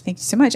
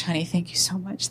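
First: Gushing thanks building up. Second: Gushing thanks. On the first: Excited wife thanking her husband, a mild mock gush. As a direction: let the gratitude burst out. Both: Retold or imitated. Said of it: "she kept saying to him".

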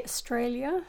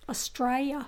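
First: Australia with the L fully sounded; careful, textbook "Australia", L intact; L pronounced. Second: Australia with the L dropped, like "Straya"; broad Aussie "Australia" without any L sound. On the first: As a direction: say Australia in full, clear L before the ending. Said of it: "You don't say Australia". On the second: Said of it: "You, you pronounce it like". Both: Shown as a demonstration.

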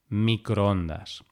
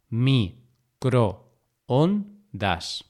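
First: Said in the usual way. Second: Microondas pulled apart very slowly, mi, cro, on, das; long pauses between all syllables of "microondas". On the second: Shown as a demonstration. Teacher repeating microondas to show the hiato, syllable by syllable.

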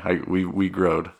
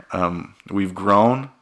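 First: "we growed", played as country grammar; joking "growed" instead of grown. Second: Slow, deliberate "we've grown"; slow, corrected "we've grown"; careful correction. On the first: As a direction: say "growed" as a deliberate small-town slip. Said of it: "I'm from Cedar City". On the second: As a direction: stretch out "grown" to set it right. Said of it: "I'm sorry". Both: Shown as a demonstration.

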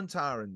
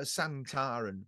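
First: "Sontaran" with an o in the first syllable; first pronunciation. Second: "Santaran" with an a in the first syllable, drawn out; alternative pronunciation. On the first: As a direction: say "Sontaran" with a rounded first vowel, SON-. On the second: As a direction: say "Santaran" slowly, opening on SAN-. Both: Shown as a demonstration. Trying two pronunciations of word.

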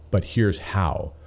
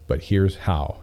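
No difference in how they are said.

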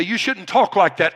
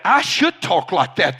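First: Said in the usual way. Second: "should" hit firmly against the objection; stress on should. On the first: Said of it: "You say". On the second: Real, not acted. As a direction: push back by punching "should". Rebutting the objection just quoted.

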